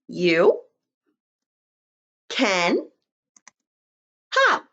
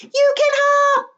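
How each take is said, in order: First: It is said at a normal volume. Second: It is yelled loudly and excitedly.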